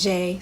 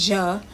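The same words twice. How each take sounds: First: "je" said as "zhay"; mistaken pronunciation. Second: "je" said as "zhuh"; short neutral vowel in "je", like "zhuh"; corrected pronunciation. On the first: Learner recalling a wrong guess, mispronounced. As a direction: say "je" to rhyme with "day". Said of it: "I thought that was je". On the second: Learner repeating the app's sound, corrected pronunciation. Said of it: "so that's je". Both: Shown as a demonstration.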